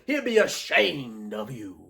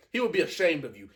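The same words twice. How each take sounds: First: Slow, stretched-out ASHAMED; imitating a slow, dramatic put-down; drawn-out delivery. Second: Said in the usual way. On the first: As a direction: linger long on the word "ashamed". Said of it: "I like that delivery". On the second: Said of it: "instead of saying".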